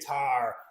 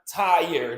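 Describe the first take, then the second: First: The vowel is flattened into one long sound. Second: The vowel is a full two-part glide. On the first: "they say tar" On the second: "not tire"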